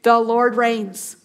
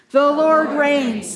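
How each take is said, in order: First: Slow, weighty "The Lord reigns"; measured proclamation; slow declaration. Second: Very slow, drawn out "Lord reigns"; slow call-and-response proclamation; slow unison call. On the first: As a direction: set it down slowly. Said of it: "Do you remember what it is?". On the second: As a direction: lead the congregation in saying it. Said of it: "Say it with me". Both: Shown as a demonstration.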